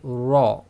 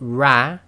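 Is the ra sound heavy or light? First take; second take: heavy; light. First: It is heavy, said with a full rounded mouth. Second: It is light, said with spread smiling lips. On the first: The speaker calls it right. "that is with a full mouth" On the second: The speaker calls it wrong. "that is with a slight smile"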